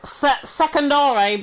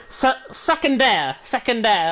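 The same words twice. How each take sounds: First: Secondare said haltingly, slow and anglicised; bad pronunciation. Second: Secondaire said slowly in a French accent. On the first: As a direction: stumble slowly through Secondare. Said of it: "that's a really bad pronunciation". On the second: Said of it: "put the best French accent on". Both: Shown as a demonstration.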